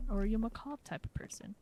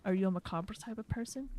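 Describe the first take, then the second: First: Macabre said ma-KAHB, no ending; two syllables. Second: Macabre said ma-CAH-bruh; three syllables. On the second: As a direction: macabre with a sounded final ruh. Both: Shown as a demonstration. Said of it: "would you say macabre or macabre".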